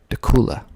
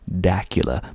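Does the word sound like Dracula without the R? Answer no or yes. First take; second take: no; yes. First: It does not sound like Dracula without R. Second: It sounds like Dracula without the R. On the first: The speaker calls it right. "People around here call it Dacula" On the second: The speaker calls it wrong. "I used to think it was pronounced Dacula because it sort of looks like Dracula without the R. ... but that is not correct"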